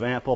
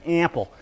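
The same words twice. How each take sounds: First: The word is said with a standard accent. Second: The word is said with a New York accent. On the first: This is the usual way to say it. "instead of ample" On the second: This is how the poet said it. "He says ample"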